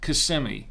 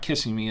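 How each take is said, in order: First: The name is pronounced the way locals say it. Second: The name is pronounced the way outsiders say it. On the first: The speaker calls it right. "It's Kissimmee" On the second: The speaker calls it wrong. "No, it's not Kissimmee"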